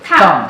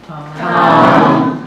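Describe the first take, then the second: First: It is said with the fourth tone, falling quickly. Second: It is said with the first tone. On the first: "The fourth one is go down. Yes, very quickly. Short" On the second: "So the first one"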